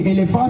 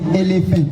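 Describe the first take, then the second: First: The word is pronounced with French sounds. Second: The word is pronounced with English sounds. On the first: "c'est français" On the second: "en anglais, on dit elephant"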